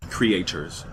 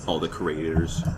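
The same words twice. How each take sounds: First: "Creators" repeated clearly, each sound spelled out; clear correction. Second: Mumbled through a mouth full; talking with a mouth full of food; mouth full of hot food. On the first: Shown as a demonstration. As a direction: say "Creators" again, slowly and carefully. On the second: Real, not acted. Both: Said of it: "Sorry, I'm eating hot chicken".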